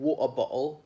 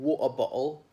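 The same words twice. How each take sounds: First: The T's are replaced by glottal stops. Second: The same.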